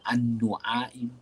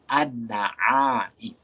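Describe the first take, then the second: First: The vowel after the n is u. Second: The vowel after the n is a. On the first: The speaker calls it wrong. "Tak dibaca an-nu'aim" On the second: The speaker calls it right. "Tapi dibaca dengan baris atas"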